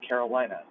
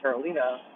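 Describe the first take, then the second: First: The name is said the usual American way. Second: The name is said a non-American way. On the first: The speaker calls it wrong. "Americans say Carolina" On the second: The speaker calls it right. "It's actually Carolina"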